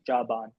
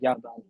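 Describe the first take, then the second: First: The word begins with a J sound. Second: The word begins with a Y sound. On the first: The speaker calls it wrong. "They don't say Jaban" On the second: The speaker calls it right. "They say Yaban"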